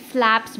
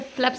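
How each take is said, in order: First: "फ्लैप्स" with an open "ae" vowel, as in "flaps"; right pronunciation. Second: "फ्लैप्स" said flat, the "a" not opened toward "ae"; wrong pronunciation. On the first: Teacher giving students the correct "फ्लैप्स" with the open "ae" sound. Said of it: "फ्लैप्स बोलते". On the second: Teacher showing students the wrong "फ्लैप्स" with no "ae" sound. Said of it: "सीधा ऐसा फ्लैप्स नहीं बोलते". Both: Shown as a demonstration.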